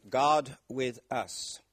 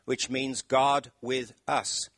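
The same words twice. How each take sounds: First: Slow and weighty. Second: Slow and deliberate. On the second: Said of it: "one word". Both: Shown as a demonstration.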